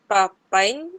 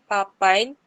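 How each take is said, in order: No difference in how they are said.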